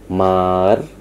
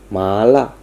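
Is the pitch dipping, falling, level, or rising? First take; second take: dipping; rising. First: The pitch dips down, then rises again. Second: The pitch rises from low to high. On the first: "nada yang melengkung dari atas turun ke bawah kemudian naik lagi" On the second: "nada yang naik dari rendah ke tinggi"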